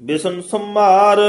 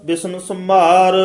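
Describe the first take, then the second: No difference in how they are said.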